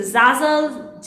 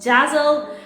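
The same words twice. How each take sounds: First: "Zazzle" with a Z first sound; "Zazzle", buzzing Z, falling at the end; Z pronunciation. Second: "Jazzle" with a J first sound; "Jazzle", J in place of Z; J pronunciation. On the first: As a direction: say "Zazzle" starting as in zoo. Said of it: "some saying it's a Zazzle". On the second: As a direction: say "Jazzle" starting as in jazz. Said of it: "some it's saying it's a". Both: Shown as a demonstration.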